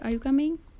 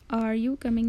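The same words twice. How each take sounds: First: The voice rises toward the end. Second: The voice does not rise at the end. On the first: The speaker calls it right. "Stress को rise करेंगे, जैसे कि ... बल्कि" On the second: The speaker calls it wrong. "नहीं कहेंगे"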